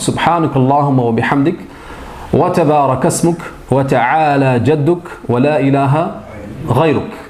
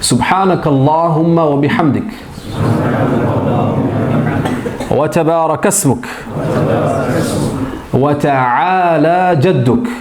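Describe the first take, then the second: First: It is recited at normal speed. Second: It is recited slowly.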